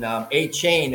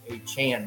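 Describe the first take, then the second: First: The last syllable rhymes with 'rain'. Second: The last syllable rhymes with 'man'. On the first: This is how others had been saying the name. The speaker calls it wrong. "they were pronouncing A-Chain" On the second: This is how the player wants the name said. The speaker calls it right. "I want to be A-Chan now"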